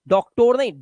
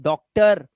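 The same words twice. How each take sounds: First: डॉक्टर with a clear o in the last syllable, doc-tor; the wrong way: डॉक्टर ending in a full o; wrong o reading. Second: डॉक्टर with a short uh in the last syllable, doc-tuhr; correct weak ending. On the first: Teacher mocks the wrong reading, डॉक्टर with a full o. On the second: Teacher gives pupils the right डॉक्टर, uh ending. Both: Shown as a demonstration.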